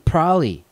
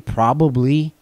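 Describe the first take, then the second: First: The word is shortened with syllables run together. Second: Every syllable of the word is said clearly. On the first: The speaker calls it wrong. "I get lazy on some stuff" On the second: The speaker calls it right. "I don't say probably"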